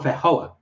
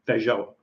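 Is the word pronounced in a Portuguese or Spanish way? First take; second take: Spanish; Portuguese. First: It is pronounced with a Spanish-style accent. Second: It is pronounced with a Portuguese-style accent. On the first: The speaker calls it right. "That's right" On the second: The speaker calls it wrong. "I'm trying to pronounce it like Brazilian"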